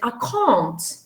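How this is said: It is said with a British vowel. "and the British say"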